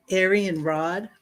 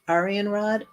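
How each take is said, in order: First: Aryan said slowly with an "air" first vowel; trying a pronunciation. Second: Aryan said with an "ah" first vowel; alternative pronunciation. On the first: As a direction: try "Aryan Rod" slowly, opening like "air". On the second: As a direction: try "Aryan Rod" opening like "ar". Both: Shown as a demonstration. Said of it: "do not know how to pronounce this".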